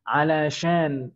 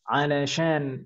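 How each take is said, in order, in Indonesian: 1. Digabung menjadi satu kata. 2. Digabung menjadi satu kata.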